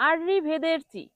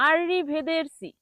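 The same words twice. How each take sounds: Both takes have the same delivery.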